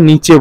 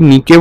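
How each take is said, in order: First: The middle consonant is a ch sound. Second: The middle consonant is a hard k sound. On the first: "বা নিচে বলতে পারে" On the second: "অনেকে নিকে বলতে পারে"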